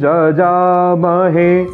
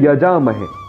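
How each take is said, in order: First: The word begins with a j sound. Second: The word begins with a y sound. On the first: The speaker calls it right. "य का उच्चारण ज होता है" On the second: The speaker calls it wrong. "यहां लोग कहते हैं यजामहे"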